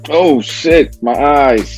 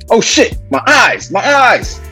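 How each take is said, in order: First: The line sounds fairly calm, without real pain. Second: The line sounds pained, like being sprayed. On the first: The speaker calls it wrong. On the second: The speaker calls it right.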